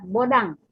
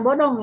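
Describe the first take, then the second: First: The last syllable sounds like 'dang'. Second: The last syllable sounds like 'dong'. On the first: The speaker calls it right. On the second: The speaker calls it wrong. "bukan bodong ya"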